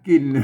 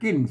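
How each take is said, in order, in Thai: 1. พยางค์นี้ใช้เสียงสามัญ 2. พยางค์นี้ใช้เสียงโทธรรมดา (1) "เสียงสามัญ" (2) "เสียงโทปกติ"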